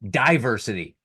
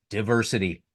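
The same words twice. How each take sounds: First: The first syllable differs from the start of 'division'. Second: The first syllable matches the start of 'division'. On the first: The speaker calls it wrong. "getting a little sexy in their pronunciation. They're saying" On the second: The speaker calls it right. "the pronunciation is"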